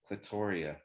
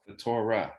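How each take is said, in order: First: The name is said with four syllables. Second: The name is said with three syllables. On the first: The speaker calls it right. "It's only four" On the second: The speaker calls it wrong. "It's three"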